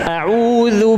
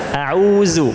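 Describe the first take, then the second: First: The middle consonant is a voiced th-like sound. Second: The middle consonant is a plain z sound. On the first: The speaker calls it right. "membaca a'udzu dengan mengeluarkan lidah" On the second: The speaker calls it wrong. "Kalau ujung lidah masih di dalam mulut, berarti ini huruf za"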